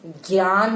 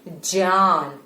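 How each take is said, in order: First: ज्ञान said as gyaan with a hard g; wrong pronunciation. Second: ज्ञान said as dzyaan, j gliding into y; real pronunciation. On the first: Teacher showing children how not to say it, gyaan. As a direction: give ज्ञान the gy sound to reject it. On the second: Teacher modelling the correct sound for children. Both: Shown as a demonstration. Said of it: "pronunciation है वो है ज्ञान".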